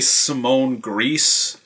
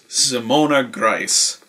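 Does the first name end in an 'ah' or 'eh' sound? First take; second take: eh; ah. First: The first name ends without the 'ah' vowel. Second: The first name ends in an 'ah' vowel. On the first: The speaker calls it wrong. "I've heard people say Simone Grice" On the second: The speaker calls it right. "It is Simona Grice. That is how you pronounce German names"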